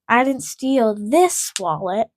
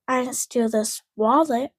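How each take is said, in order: First: The stress falls on the word this. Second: The stress falls on the word wallet. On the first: A different wallet was stolen. "I stole another one" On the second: Something other than a wallet was stolen. "I stole a different thing"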